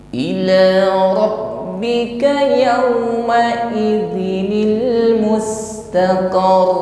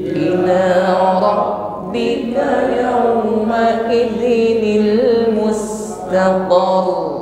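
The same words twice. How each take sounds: The two takes are said the same way.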